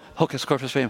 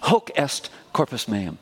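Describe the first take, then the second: First: It is said fast and slurred together. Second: It is said slowly and clearly.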